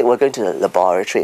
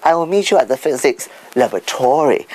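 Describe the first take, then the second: First: "laboratory" stressed on the second syllable; British word stress. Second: "laboratory" with the American stress late in the word; stress on third syllable. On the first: Speaker models British usage, "laboratory" stressed on BOR. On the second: Speaker shows American usage, "laboratory" stressed on TOR. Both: Shown as a demonstration. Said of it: "they put it on the third syllable".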